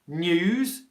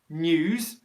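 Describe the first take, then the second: First: A y sound comes after the n. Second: The same.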